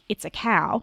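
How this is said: The voice falls at the end like a statement. It is a statement. "trying really hard to say a comment like"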